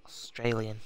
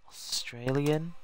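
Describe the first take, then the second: First: Said in the usual way. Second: Australian? said slowly with an unsure rising tune; the word Australian? trailing up as a doubtful question. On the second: Real, not acted. Streamer checking his spelling aloud, slow and unsure rising.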